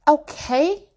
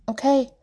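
First: Higher, louder demanding "Okay?"; insistent. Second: Said in the usual way. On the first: Acted. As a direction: press him for an answer. Mother repeats demanding an answer.

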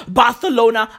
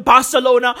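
First: Barcelona with th for the c; lisped c. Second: Said in the usual way. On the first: Shown as a demonstration. Everyone copying the king, Barcelona said with a th. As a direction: say Barcelona as "Barthelona". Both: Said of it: "everybody started calling Barcelona".

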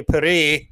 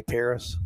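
First: Paris as "pa-REE", silent s; French snob pronunciation. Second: Said in the usual way. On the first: Shown as a demonstration. Host shows how French snobs say it, Paris as "pa-REE". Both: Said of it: "That's how French snobs say Paris".

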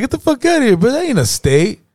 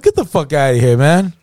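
First: Very high-pitched mock disbelief; incredulous. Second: Mild acted disbelief, rising at the end; retold scoff, starting near normal pitch; dismissive disbelief. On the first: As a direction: act out a friend flatly refusing to believe it. Friend's escalated acted disbelief. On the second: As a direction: brush it off as nonsense. Friend's first acted disbelief.

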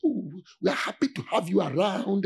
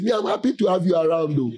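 First: Sweet welcoming voice. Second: Blunt, not sweet. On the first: Retold or imitated. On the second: Shown as a demonstration. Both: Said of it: "my voice is not sweet".

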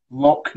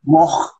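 First: LOCH ending in a hard K, like lock; non-Scots pronunciation. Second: LOCH with a throaty CH at the end; Scottish pronunciation. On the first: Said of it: "but we say loch". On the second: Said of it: "that would be the back of the throat". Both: Shown as a demonstration.

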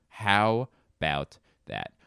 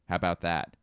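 First: "How about that" slow, word by word; slow, emphatic "How about that"; drawn-out repeat. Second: Said in the usual way. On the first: Real, not acted. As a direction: stretch out HOW and let each word stand apart.

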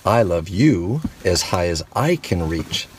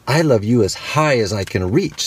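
First: Big hare. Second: Little hare. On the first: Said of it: "said Big Nut Brown Hair". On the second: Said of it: "said Little Nut Brown Hair". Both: Acted.

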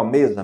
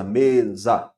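First: Said in the usual way. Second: "mesa" split into me-sa; syllable by syllable. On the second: Shown as a demonstration. Teacher demonstrating syllable division to students, "mesa" syllable by syllable. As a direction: say "mesa" as two separate beats, each syllable distinct. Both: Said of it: "Cada sílaba é uma emissão de som".

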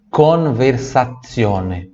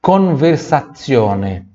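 Both takes have the same delivery.

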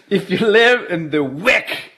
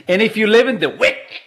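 First: "live" drawn out slowly with a rising end; slow teasing repeat. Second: Said in the usual way. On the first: Pretend. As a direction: stretch it out, teasing the Wick crowd. Repeats the line after laughing.

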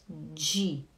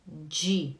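First: "De" with a hard, clean d; correct De. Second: "De" again with a clean d; correct De. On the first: Teacher modelling the correct German "De". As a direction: say "De" hard, no dji. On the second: Teacher repeating the correct "De" for students. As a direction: repeat "De" with a hard d. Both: Shown as a demonstration.

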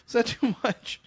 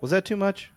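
First: Much higher, teasing mock-shy repeat; playful sheepish. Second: Higher, tentative little check-in; sheepish. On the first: Repeating the question to his cohost, higher and playfully coy. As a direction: ask it again, higher and coy. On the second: After ranting, asking his cohost with a sheepish lift. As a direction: ask it a bit embarrassed after the rant. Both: Real, not acted. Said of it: "I just had to let that out".

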